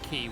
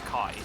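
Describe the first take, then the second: First: The vowel sounds like the one in 'see'. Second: The vowel sounds like the one in 'eye'. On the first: It is a pun on a sword's name. The speaker calls it wrong. "they pronounce it Key, which is wrong" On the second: It follows the Greek letter's name. The speaker calls it right. "the Greek letter is Kai"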